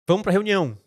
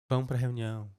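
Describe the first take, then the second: First: It sounds upbeat about the meeting. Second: It sounds bored about the meeting.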